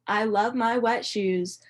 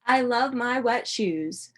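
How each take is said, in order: Both takes have the same delivery.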